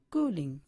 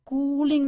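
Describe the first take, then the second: First: Said in the usual way. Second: कूलिंग with "koo" held long and higher; wrongly lengthened vowel. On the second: Shown as a demonstration. Teacher warning students against it, कूलिंग with stretched first syllable. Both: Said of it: "कूलिंग नहीं".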